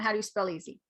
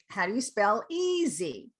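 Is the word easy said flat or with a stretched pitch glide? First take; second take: flat; glide. First: The word easy is short and flat. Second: The word easy is stretched with a pitch glide. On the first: The speaker calls it wrong. "it's just not" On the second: The speaker calls it right. "the first syllable is longer"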